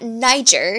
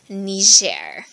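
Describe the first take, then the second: First: The name is said with an English-sounding pronunciation. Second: The name is said with a French-sounding pronunciation. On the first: The speaker calls it wrong. "It is not Niger" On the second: The speaker calls it right. "Sounds French"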